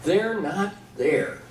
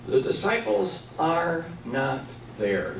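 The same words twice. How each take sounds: First: They're not there, each word slow and weighted; slow stressed statement. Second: Disciples leaned on, slow fall; slow emphatic restatement. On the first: Teacher driving the point home, slow and weighted. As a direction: lay it down slowly for the class. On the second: Teacher repeats the point for students, slowly. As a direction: spell it out slowly for them. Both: Shown as a demonstration. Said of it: "What does that tell us in the story?".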